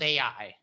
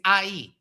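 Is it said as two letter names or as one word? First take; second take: letter names; one word. First: It is said as two separate letter names. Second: It is said as a single word. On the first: The speaker calls it wrong. "not A I" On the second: The speaker calls it right. "the pronunciation of that word in Hebrew is Ai"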